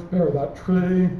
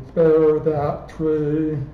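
First: Said in the usual way. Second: Spare that tree, very slow, each word stressed evenly like a machine; dictionary stress reading. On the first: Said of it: "If you say it naturally". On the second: Shown as a demonstration. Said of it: "With the C M U dictons, we get".

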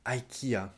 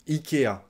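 First: Ikea as "eye-kee-a"; English pronunciation. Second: Ikea as "ee-kay-a"; French pronunciation. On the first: Teacher echoes the English store name, English pronunciation. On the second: Teacher gives learners the French store name, French pronunciation. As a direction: start ikea on "ee", then "kay-a". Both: Shown as a demonstration. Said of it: "en français".

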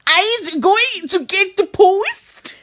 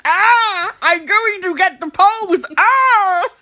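First: Slow, drawn-out mock German; bad German accent. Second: Put-on strained cries, thick Austrian accent; Arnold Schwarzenegger. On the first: Told to sound angry, slow mock German accent. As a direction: drag it out in fake German. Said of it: "that's meant to be German". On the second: Fitting the post into an actor impression, strained Austrian accent. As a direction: groan and bellow like an action hero. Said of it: "Arnold Schwarzenegger do that".

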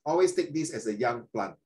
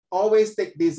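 First: Said in the usual way. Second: "Always" punched out loud; stress on ALWAYS. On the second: Shown as a demonstration. Teacher stressing "Always" to his students. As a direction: hit "Always" hard to drive the point home.

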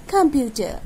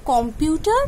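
First: "computer" as kum-PYU-tuh, falling; corrected pronunciation. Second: "Computer" as KOM-pyu-tar with a full o, rising; mispronounced. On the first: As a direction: weaken the first vowel of "computer" to "kum". ("computer" শুদ্ধ করে, কাম-পিউ-টা, নামা সুরে) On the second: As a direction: ask "Computer" opening on "kom". ("Computer" ভুল উচ্চারণে, কম্পিউটার, প্রশ্নের সুরে) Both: Shown as a demonstration. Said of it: "The right is".

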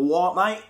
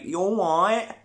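First: Short clipped London "What, mate?" said fast; quick London twang. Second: Slow Kent twang. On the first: Londoner's quick reply in a light London accent. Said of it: "a Londoner will go". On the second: Man from Kent answering with a slow, stretched Kent drawl. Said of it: "the guy from Kent will be like". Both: Retold or imitated.

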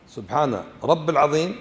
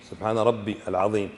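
First: رب العظيم said as rabb-il-azim, rising at the end; wrong pronunciation. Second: ربي with an audible ya before العظيم; lower, voice the ya in ربي; correct pronunciation. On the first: Teacher repeats the faulty wording for students, mispronounced demonstration. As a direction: leave out the ya after رب. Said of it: "أخطأت". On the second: Teacher corrects students' wording of the prayer, careful pronunciation. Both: Shown as a demonstration.

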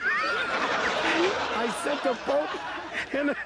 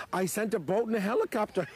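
First: High, slow, laughing through the words; can't get it out for giggling; cracking up. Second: Said in the usual way. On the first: Real, not acted. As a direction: repeat the punchline while breaking into laughter. Repeats punchline, cracking up.

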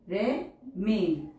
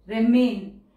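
First: remain drawn out very slowly; slow teacher dictation. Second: Said in the usual way. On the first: Shown as a demonstration. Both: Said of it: "teacher says word then dictates".

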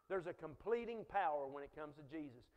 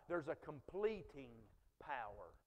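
First: Said in the usual way. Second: "completing" said low, then a long pause before "power"; preacher's suspense pause before "power"; dramatic pause. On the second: Shown as a demonstration. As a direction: hold back before "power", drop low.

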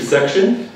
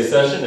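First: SECTION with a "k" before "shun", higher; quoted wrong word. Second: SESSION with no k sound; corrected word. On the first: Retold or imitated. Evaluator repeating the speaker's slip, clearly sounded k. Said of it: "you said the word section". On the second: Shown as a demonstration. Evaluator giving the intended word, no k before "shun". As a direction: say session as "SESH-un". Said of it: "we would want to say session".

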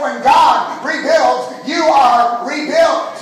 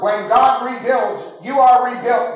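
First: Slow, louder shout with "God" and "are" hit hard; emphatic shout. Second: Said in the usual way. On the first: Shown as a demonstration. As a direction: drive "God" and "are" home, slowly and loudly. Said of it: "Did you hear me?". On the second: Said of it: "I like the emphasis".

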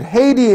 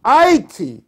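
First: "Haiti" said HAY-tee, with the h sounded; French-derived name. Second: "Haiti" said eye-EE-tee or EYE-tee, without the h; Indian name. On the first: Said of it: "that Haiti in the French". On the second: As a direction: drop the h and open "Haiti" with an "eye" sound. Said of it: "Haiti in the Indian". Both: Shown as a demonstration.

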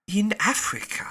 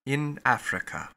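First: IN lifted high in wonder; wondering repeat. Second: Said in the usual way. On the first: Acted. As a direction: Passepartout echoing Fix, marvelling at being in Africa. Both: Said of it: "repeated Passepartout".

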